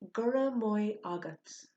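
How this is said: The word maith is said like moy. This is the northern dialect form. "the northern dialect of Irish"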